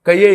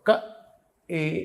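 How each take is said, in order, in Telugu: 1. 'y' glide 'ka' ని 'e' తో కలుపుతుంది. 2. 'ka' మరియు 'e' విడిగా ఉంటాయి, గ్లైడ్ ఉండదు. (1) "అలా చదవకూడదు" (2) "ఇక్కడి నుంచి పలకాలి"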